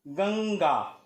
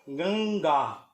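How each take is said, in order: First: The vowel before it is only nasalized. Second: The nasal is said as a full consonant. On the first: The speaker calls it wrong. "अनुस्वार की तरह से किया ... जो कि वास्तव में अशुद्ध है" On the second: The speaker calls it right. "पंचमाक्षर का उच्चारण करें"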